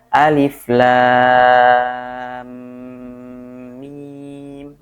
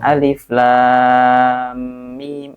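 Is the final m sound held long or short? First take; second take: long; short. First: The final m sound is held a little longer. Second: The final m sound is released quickly. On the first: The speaker calls it right. "kalau agak ditekan dikit udah kerasa" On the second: The speaker calls it wrong. "kurang lama dikit nih"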